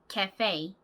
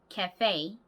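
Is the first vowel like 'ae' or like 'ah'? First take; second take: ae; ae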